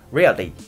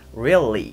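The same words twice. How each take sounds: First: The L is a quick Japanese-style flap. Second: The L is a clear, held English L. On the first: The speaker calls it wrong. "できていないバージョン" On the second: The speaker calls it right. "できてるバージョン"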